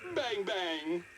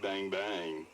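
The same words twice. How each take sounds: First: It is said in a happy tone. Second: It is said in a flirty tone.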